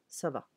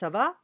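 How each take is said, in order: First: The voice falls at the end, as a statement. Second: The voice rises at the end, as a question.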